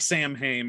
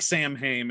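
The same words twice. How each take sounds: First: The word is sounded out letter by letter. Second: The same.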